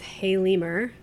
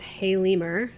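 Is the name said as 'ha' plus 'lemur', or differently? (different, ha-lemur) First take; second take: ha-lemur; ha-lemur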